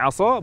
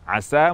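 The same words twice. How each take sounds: First: The s sound is thick and emphatic. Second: The s sound is thin and light. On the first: It means committing disobedience. The speaker calls it wrong. "berubah menjadi tafkhim, tebal" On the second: It means hoping, may it be. The speaker calls it right. "huruf sin dengan sifat tarqiq, tipis"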